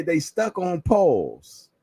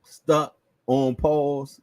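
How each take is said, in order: First: "stuck" दबाकर धीरे; pun delivery. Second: "Stuck on Paul's" very slowly, each word spaced; pun repeated slower. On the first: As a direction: stretch "stuck on Paul's" slowly for the pun. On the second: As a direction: spell the joke out slowly. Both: Shown as a demonstration. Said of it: "Get it?".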